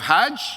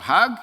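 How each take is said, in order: First: The word ends with a soft j sound. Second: The word ends with a hard g sound. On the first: This is the standard pronunciation. "the word Hajj" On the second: This is the Egyptian Arabic pronunciation. "The J becomes a G. So the Egyptians pronounce it Hag"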